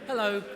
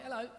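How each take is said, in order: First: The voice is pitched low and formal. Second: The voice is pitched high and casual. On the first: It is meant for broadcast radio. "This is my Radio four voice and it's down there" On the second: It is meant for intimate podcast listening. "This is my podcast voice, right? That's up here. It's, it's a higher cadence and I drop my H's"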